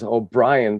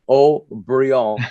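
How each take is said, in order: First: The name is said the English way, O'Brien. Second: The name is said the French way, Haut-Brion. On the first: This is the family's original name. "her name is O'Brien" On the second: This is how French speakers say it. "the French pronounce it Haut-Brion"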